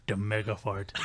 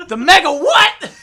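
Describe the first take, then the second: First: Low, imitated country deadpan; deep country coworker. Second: Slow, high, full-volume disbelief; incredulous yell. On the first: Imitating the coworker repeating his answer, deep country voice. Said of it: "he had a real deep down low voice". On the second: Retold or imitated. Storyteller questioning coworker's mega fart, incredulous yell. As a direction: yell each word out in astonishment.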